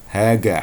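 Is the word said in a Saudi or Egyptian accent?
Egyptian. It is said with a hard g sound.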